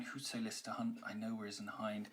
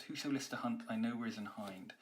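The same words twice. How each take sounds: First: Softly, conspiratorial hush; whispery. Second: Quick, sprightly read rushing unstressed syllables; fast. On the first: Teacher reading the opening line to students, hushed and whispery. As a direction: lean in and share a secret quietly. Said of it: "it is actually quite whispery". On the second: Teacher showing the line's speed to students, quick and sprightly. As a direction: race through it excitedly. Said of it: "So it's very fast". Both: Shown as a demonstration.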